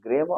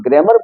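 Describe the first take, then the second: First: ग्रामर with the final r silent, ending on a soft a; correct pronunciation. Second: ग्रामर with the final r sounded, grammar-r; wrong pronunciation. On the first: Teacher giving students the right way, ग्रामर with the r silent. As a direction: drop the end r in ग्रामर, say grama. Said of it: "इसका सही उच्चारण क्या होगा?". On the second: Teacher showing students the common mistake, ग्रामर with the r sounded. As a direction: show the mistake: pronounce the r at the end of ग्रामर. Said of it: "वो wrong है". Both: Shown as a demonstration.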